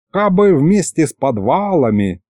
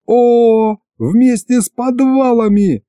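First: A mild sighing wish; lightly voiced wistful grandfather. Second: High, drawn-out eureka; jumping at a sudden idea; excited outburst. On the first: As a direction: wish it aloud, with a touch of regret. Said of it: "снова вздохнул дед". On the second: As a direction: seize on the idea with delight. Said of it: "Я подпрыгнул на месте". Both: A narrator's reading.

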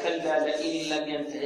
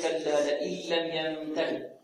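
First: "كلا لئن لم ينته" recited the faulty way, unstretched; wrong recitation. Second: "كلا لئن لم ينته" recited slowly, drawn out; correct recitation. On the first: Teacher shows students the mistake in "كلا لئن لم ينته", wrong recitation. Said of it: "هذا خطأ". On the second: Teacher corrects the mistaken reading of "كلا لئن لم ينته", correct slow recitation. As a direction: softly model "كلا لئن لم ينته" with measured, lengthened sounds. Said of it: "بل الصحيح". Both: Shown as a demonstration.

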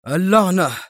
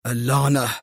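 First: Louder, higher angry curse; raised-voice oath; exclaimed curse. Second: Restrained, frustrated curse; understated angry oath; exclaimed curse. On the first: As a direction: burst out cursing in frustration. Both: A narrator's reading. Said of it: "هتف برنارد".

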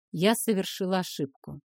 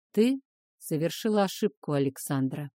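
First: Said in the usual way. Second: A touch hoarse, low male voice; slightly husky, low dragon. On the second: Acted. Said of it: "чуть хриплым голосом".

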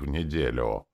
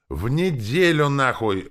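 First: Said in the usual way. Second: Higher and louder, yelling "В неделю, нахуй!" with a hard fall; furious yell. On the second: A narrator's reading. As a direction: hurl "В неделю" back at the orc in a rage. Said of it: "заорал Рене".

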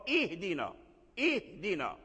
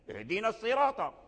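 First: اهدنا opened on a clear glottal i; correct hamza start. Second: اهدينا begun straight on the h, first vowel dropped; wrong linking hamza. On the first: Teacher giving students the correct start, اهدنا with sounded hamza. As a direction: begin اهدنا with a full, cut hamza. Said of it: "إذن ايش الصواب؟". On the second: Teacher showing students the faulty start, vowelless اهدينا. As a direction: start اهدينا الصراط with no opening i. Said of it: "هذا لحن". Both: Shown as a demonstration.

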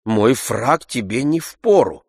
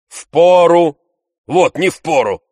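First: Frowning objection. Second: Higher, louder scoffing echo; Tarantyev interrupting. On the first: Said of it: "сказал Обломов, хмурясь". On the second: Tarantyev cutting Oblomov off, loud scoffing repeat. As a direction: toss the word back mockingly. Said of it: "перебил Тарантьев". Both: A narrator's reading.

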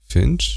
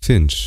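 First: „Finch?” repeated with a sharp high rise; questioning Finch. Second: Said in the usual way. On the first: A narrator's reading. Driver repeats her nickname back with a rising question. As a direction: echo „Finch?” as a surprised question, pitch jumping up.

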